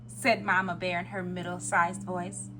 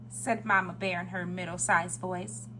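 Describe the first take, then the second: Both takes have the same delivery.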